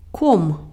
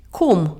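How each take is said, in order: Both takes have the same delivery.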